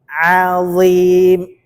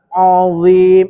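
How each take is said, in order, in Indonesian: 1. Bunyi vokal pertama terdengar tipis dan ringan. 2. Bunyi vokal pertama terdengar tebal dan gelap. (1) "a-nya tipis, dha-nya yang tebal" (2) "ainnya ikut tebal. Azim, enggak"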